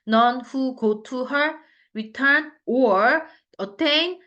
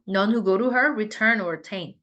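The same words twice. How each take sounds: First: Every word is pronounced separately and distinctly. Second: Small words are reduced and run together quickly. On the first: The speaker calls it wrong. "이렇게 또박또박 하지 않고요" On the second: The speaker calls it right. "보통은 ... 한 단어처럼 들리는 경우가 있어요"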